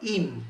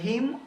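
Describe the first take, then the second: First: The h sound at the start is dropped. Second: The h sound at the start is pronounced. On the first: "এই এইচটা একদম মানে উচ্চারণই হয় নাই" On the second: "হিম ও হয়ে গেল ইম"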